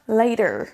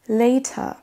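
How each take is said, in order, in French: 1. Le R final est un R américain retroussé. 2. Le R final n'est pas prononcé du tout. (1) "Les Américains vont rouler le R" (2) "les Britanniques vont pas du tout le prononcer"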